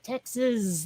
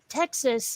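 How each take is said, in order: First: The word ends with a buzzing Z sound. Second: The word ends with a plain S sound. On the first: "like it was a Z on the end" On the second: "every time he said Texas"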